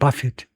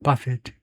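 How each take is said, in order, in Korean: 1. 강세는 첫 번째 음절에 있습니다. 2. 강세는 첫 번째 음절에 있습니다.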